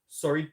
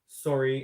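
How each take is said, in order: First: It is said in a challenging, combative tone. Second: It is said as a quick, polite apology. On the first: The speaker is ready to argue. "there's a sorry that oh you want to fight" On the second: The speaker apologizes for a small accident. "as in you might have bumped into someone"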